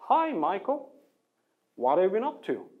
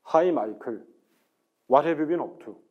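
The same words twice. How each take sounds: First: North American accent with a smooth, curving tune. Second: Korean accent with a flat, straight, choppy tune. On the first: "미국 사람이 혹은 캐나다 사람이 이걸 읽으면" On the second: "제가 전형적인 한국식 액센트로 이걸 한번 읽어볼게요"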